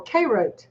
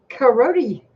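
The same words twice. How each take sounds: First: Carote said "KAY-rote", two syllables, silent final e. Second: Carote said "kuh-ROH-tee", three syllables; Carote ending in "-tee". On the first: Vlogger offering a brand name's regional variants, Carote as KAY-rote. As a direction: open Carote with "kay" and end on the t. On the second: Vlogger offering a brand name's regional variants, Carote as kuh-ROH-tee. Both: Shown as a demonstration. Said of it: "depending on your region, you pronounce it however you'd like to".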